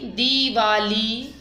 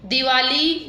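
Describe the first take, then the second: First: दीवाली slowly, with long "dee"; long first vowel. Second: दिवाली with a short "di"; short first vowel. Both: Shown as a demonstration. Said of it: "मात्रा संबंधी अशुद्ध शब्द".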